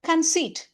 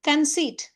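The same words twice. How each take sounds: Both takes have the same delivery.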